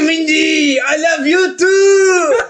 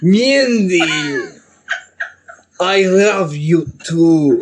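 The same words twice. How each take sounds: First: It is said in a French accent. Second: It is said in a Russian accent.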